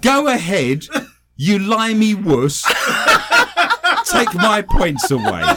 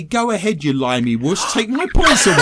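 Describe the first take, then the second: First: Put-on slow, laughing Irish accent; hammed-up Irish accent. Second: Mock taunt. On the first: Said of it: "read your first story out in an Irish accent". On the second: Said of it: "He then goes on to say".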